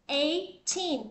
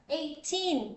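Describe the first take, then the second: No difference in how they are said.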